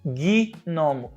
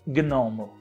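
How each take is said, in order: First: An extra i vowel separates g and n. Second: The g and n are joined with no vowel. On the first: "a gente fala gnomo. A gente coloca um izinho ali" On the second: "A gente não fala gnomo"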